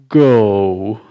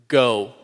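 First: It is said in a deep baritone voice. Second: It is said in a normal voice.

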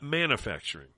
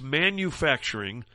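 First: The word is said with an altered pronunciation. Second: The word is said with its standard pronunciation. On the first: The speaker calls it wrong. "It's not manufacturing" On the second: The speaker calls it right. "It's manufacturing"

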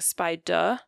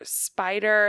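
First: The final R is replaced by a vowel. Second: The final R sound is fully pronounced. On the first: This is a child's simplified form. The speaker calls it wrong. "the child is saying spider" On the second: This is the target adult form. The speaker calls it right. "or spider"

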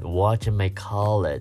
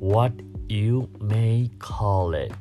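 First: The words are said fast and run together. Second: Each word is said slowly and separately. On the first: "念快一点就会变成" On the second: "原本正确的写法应该是"

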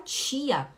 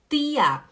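First: It is said with a Belém accent. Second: It is said with a Recife accent.

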